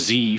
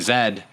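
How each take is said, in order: First: The letter is said the American way, zee. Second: The letter is said the British way, zed.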